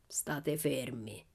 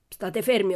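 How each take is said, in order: First: Very slow, low, hushed threat; menacing growl. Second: Loud, sharp order; insistent command. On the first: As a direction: growl it low and drawn out, almost voiceless. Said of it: "ruggì Laban". (ringhio basso, lento e minaccioso) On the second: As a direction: repeat the order with force. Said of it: "ho detto". (ordine secco e forte) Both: A narrator's reading.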